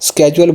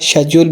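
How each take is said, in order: First: The word begins with an 'sk' sound. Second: The word begins with an 'sh' sound. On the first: This is the American pronunciation. "American इसको स्केड्यूल बोलते हैं" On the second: This is the British pronunciation. "जो British हैं वो इसको शेड्यूल बोलते हैं"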